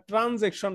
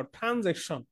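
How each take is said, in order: First: "ট্রানজ্যাকশন" with a hard, unaspirated ট at the start; hard T pronunciation. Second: "ট্রানজ্যাকশন" opened with aspirated ঠ instead of ট; aspirated TH pronunciation. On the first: Teacher shows students the mistaken sound, "ট্রানজ্যাকশন" with unaspirated ট. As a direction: say "ট্রানজ্যাকশন" with plain T, no puff of air. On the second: Teacher corrects students' pronunciation, "ট্রানজ্যাকশন" starting with aspirated ঠ. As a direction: puff air on the first sound of "ট্রানজ্যাকশন", ঠ. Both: Shown as a demonstration. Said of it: "এই টটারে ঠ করে দাও".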